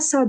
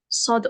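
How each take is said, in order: First: The vowel is open and sounds like 'a'. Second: The vowel is dark and sounds like 'o'. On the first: The speaker calls it wrong. "On dit pas Sad" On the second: The speaker calls it right. "on dit Sod"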